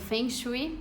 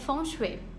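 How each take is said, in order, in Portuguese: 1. É dito com sons do português brasileiro. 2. É dito sem sons do português brasileiro. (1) "Isso daí é o abrasileirado aí" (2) "a pronúncia correta é Feng Shui"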